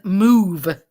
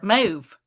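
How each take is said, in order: First: The word is said plainly, without force. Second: The word is said hard, with strong force.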